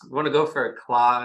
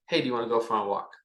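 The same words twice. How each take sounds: First: Claw said in place of walk, the word reversed; word said backwards. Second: Said in the usual way. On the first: Shown as a demonstration. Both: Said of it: "We usually say it backwards".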